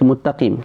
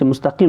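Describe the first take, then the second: First: The middle consonant is a t sound. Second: The middle consonant is an s sound. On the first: The speaker calls it wrong. "Sin tu diubah jadi ta lah" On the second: The speaker calls it right. "kita baca mustaqim"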